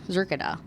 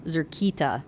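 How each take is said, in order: First: Zerkida softened, with a light middle and a D; failed alien pronunciation. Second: Zerkita with a stressed KEE in the middle; correct alien pronunciation. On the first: Woman repeating the alien's word, failed alien pronunciation. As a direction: say Zerkida casually, missing the stressed second syllable. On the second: Alien correcting her attempt at his word, correct alien pronunciation. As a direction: say Zerkita carefully, leaning on the second syllable. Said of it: "He chittered". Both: A narrator's reading.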